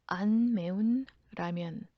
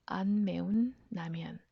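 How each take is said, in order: Both takes have the same delivery.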